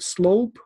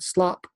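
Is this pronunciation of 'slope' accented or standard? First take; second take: standard; accented. First: The word has its standard English vowel. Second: The word has a shorter, foreign-sounding vowel. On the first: The speaker calls it right. "not slope" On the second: The speaker calls it wrong. "but slop"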